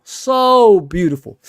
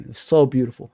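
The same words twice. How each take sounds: First: "So beautiful" drawn out slowly and louder; savouring admiration. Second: Said in the usual way. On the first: Real, not acted. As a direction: linger on "So beautiful" like you're reliving it. Admiring Ronaldo, drawn-out repeat.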